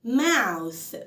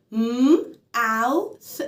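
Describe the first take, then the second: First: Said in the usual way. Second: "mouth" split into m, ow, th with gaps; sound by sound. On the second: Shown as a demonstration. Teacher shows how to read mouth, sound by sound. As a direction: break "mouth" into three separate sounds. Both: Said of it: "فأنا مقسمة مقاطع".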